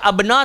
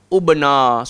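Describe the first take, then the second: First: The word begins with an a vowel. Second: The word begins with a u vowel. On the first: "tak boleh baca abna" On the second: "tak boleh baca ub ubna"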